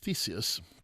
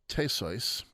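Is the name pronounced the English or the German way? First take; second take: English; German. First: The name is pronounced the English way. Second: The name is pronounced the German way. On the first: "You might have thought it was" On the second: "that's the German pronunciation"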